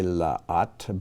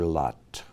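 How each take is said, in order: First: Two separate ah vowels are heard. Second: The two vowels merge into one. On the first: "since we have two ah sounds, ah vowels in a row, you can say la'at" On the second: "they're going to blend together to lot"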